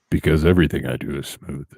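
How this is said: It is said in a smooth, silky voice.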